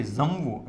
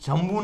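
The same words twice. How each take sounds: First: જમવું begun with a buzzing z, zamvu, as in ooze; z sound. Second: જમવું with a plain j sound at the start; wrong sound. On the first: Teacher showing students the right z sound, said correctly. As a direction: buzz a z at the start of જમવું. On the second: Teacher showing students the wrong way to say ooze. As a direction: start જમવું with the ordinary j, as the mistake. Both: Shown as a demonstration. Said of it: "જમવું નથી".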